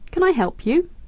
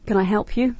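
First: The intonation sounds warm and more polite. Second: The intonation sounds curt and less polite. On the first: The speaker calls it right. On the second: The speaker calls it wrong.

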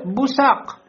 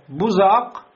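First: The middle consonant is an emphatic s. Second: The middle consonant is a z. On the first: "бессод" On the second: "беззай"

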